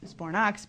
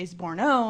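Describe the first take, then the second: First: The name ends with a clear 'ox' sound. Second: The name ends without the final 'ox' sound. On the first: The speaker calls it right. "I say Bor- Zbornox because I really like the oxy sound" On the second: The speaker calls it wrong. "I don't say Zborno"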